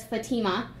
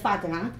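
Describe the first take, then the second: First: Fatima said the anglicized way, fa-TEE-ma; anglicized pronunciation. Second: Fatima said the original way, FAH-ti-ma; correct native pronunciation. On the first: Giving the name she went by to fit in, anglicized Fatima. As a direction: say Fatima with the stressed middle syllable, fa-TEE-ma. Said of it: "instead of Fatima, which is the correct pronunciation". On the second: Speaker telling audience her real name, correctly pronounced Fatima. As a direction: stress the first syllable of Fatima, FAH-ti-ma. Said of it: "which is the correct pronunciation of my name".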